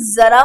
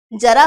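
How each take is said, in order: First: जरा with a buzzing z, zara; buzzed z. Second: जरा with a hard j, jara; plain j. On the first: Teacher asking students which is right, जरा with buzzed z. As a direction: start जरा on a z, not j. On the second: Teacher asking students which is right, जरा with plain j. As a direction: say जरा starting with j as in jam. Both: Shown as a demonstration. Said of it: "जरा ना होके क्या होगा".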